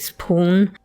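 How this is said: The vowel is far back with rounded lips. This is the older traditional pronunciation. "traditionally spoon"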